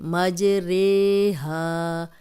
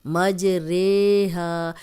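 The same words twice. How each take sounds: Both takes have the same delivery.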